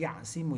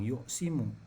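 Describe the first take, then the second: First: The first syllable has the vowel 'a'. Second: The first syllable has the vowel 'u'. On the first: The speaker calls it right. "tapi ya'simu yang betul" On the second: The speaker calls it wrong. "Tadi ada yang bilang yu'simu"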